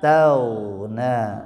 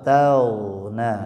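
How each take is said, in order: The two takes are said the same way.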